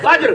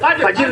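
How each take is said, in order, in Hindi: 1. j और r एक साथ बोले जाते हैं, बीच में कोई स्वर नहीं। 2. j और r के बीच एक अतिरिक्त स्वर बोला जाता है। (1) "वल फज्र" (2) "फजर नहीं है ना"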